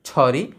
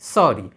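First: It begins with an aspirated chh sound. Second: It begins with a clear s sound. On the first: The speaker calls it wrong. "ছ দিয়ে লিখলে ছরি" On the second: The speaker calls it right. "দন্ত স দিয়ে লিখলে হবে সরি"

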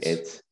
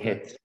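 First: The word begins without an h sound. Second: The word begins with an added h sound. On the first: This is the standard form. "Don't say hets" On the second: This is the local dialect form. "we put an additional H where we shouldn't. We say hets"

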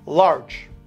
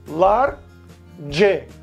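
First: The word is said as one syllable. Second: The word is split into two syllables. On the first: The speaker calls it right. "em inglês, ele tem uma sílaba só. Você fala em inglês large" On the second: The speaker calls it wrong. "Então seria como duas sílabas"

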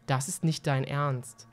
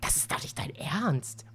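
First: It is said flatly, without emotion. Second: It is said with indignant outrage.

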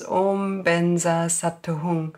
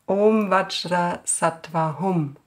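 First: It is said in the Tibetan pronunciation. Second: It is said in the Indian pronunciation.

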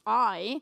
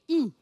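First: The letter sounds like the vowel in 'Thai'. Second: The letter sounds like the vowel in 'creep'. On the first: "if you would read it in English, is I. I as in Thai" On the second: "if you read this letter in Dutch, we don't say I, we say E. E as in creep"

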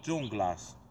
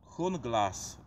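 First: The name begins with a 'j' sound. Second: The name begins with an 'h' sound. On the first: This is a letter-by-letter reading of the spelling. "niektórzy mogliby wymówić Dżunglas literkami" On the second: This is how the makers pronounce it. "oni to wymawiają"

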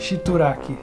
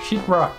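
First: It is pronounced in a Portuguese-adapted way. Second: It is pronounced in the English way. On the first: This is the mistaken form picked up from others. The speaker calls it wrong. "acaba aprendendo errado porque as pessoas já não sabem falar certo" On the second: This is the actual word. The speaker calls it right. "É sheetrock"

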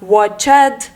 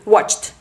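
First: The ending is said as a separate extra syllable. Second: The ending is swallowed, with no extra syllable. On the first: The speaker calls it wrong. "що часто читають, типу а-ля watched" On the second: The speaker calls it right. "Просто ковтаємо watch, вимовляємо звук ч і одразу за ним д"

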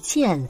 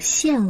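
First: The syllable is pronounced jian. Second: The syllable is pronounced xian. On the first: The speaker calls it wrong. "见不读见" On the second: The speaker calls it right. "而是读现哦"

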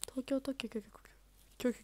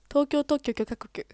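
First: The syllables are said without forceful emphasis. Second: Each syllable is hit with forceful emphasis. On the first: "強調しなくても無理でした。" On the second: "逆に強調してるから丁寧に聞こえない。"

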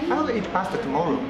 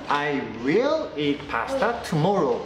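First: "I will" is contracted to "I'll", said casually. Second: "I will" is said in full, with emphasis. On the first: It is a casual everyday statement. "カジュアルですね" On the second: The speaker is insisting after being asked repeatedly. "普通に言う時っていうのは何か強調する時"

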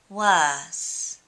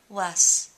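First: The mouth stays open through the final S. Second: The mouth closes before the final S. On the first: The speaker calls it right. "I've got the back of my mouth open even when I'm doing the S" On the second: The speaker calls it wrong. "rather than saying worse"

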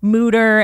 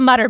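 First: The first vowel is a long oo, like scooter. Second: The first vowel is a short u, like mutt. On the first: "the second best thing is to say it like scooter" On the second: "I grew up in South Jersey where we can't even say all of our consonants. So we called it the Mutter Museum"

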